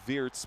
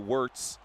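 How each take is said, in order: First: The name is said with a German pronunciation. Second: The name is said with an English pronunciation. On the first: "the actual German way to pronounce it would be" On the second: "your English commentators would say"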